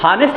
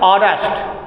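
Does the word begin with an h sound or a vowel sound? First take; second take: h sound; vowel sound. First: The word begins with an h sound. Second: The word begins with a vowel sound.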